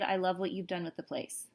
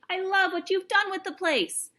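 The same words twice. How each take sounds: First: It is said flatly, without loud excitement. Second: It is said loudly, like an excited shout. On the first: The speaker calls it wrong. "So I wouldn't say" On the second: The speaker calls it right. "I would say, the cat shouted"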